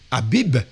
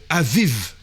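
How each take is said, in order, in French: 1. Les consonnes sont des sons B. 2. Les consonnes sont des sons V. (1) "le mois de Abib" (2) "le B, ils vont dire euh, Aviv"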